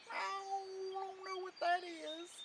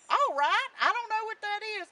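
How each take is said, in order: First: Put-on old tomcat. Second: High, loud, quick rooster voice; rooster character. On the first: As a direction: let the words trail like a meow. Tomcat answers Jack in story. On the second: Acted. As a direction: squawk it out fast and loud. Rooster answers Jack in story.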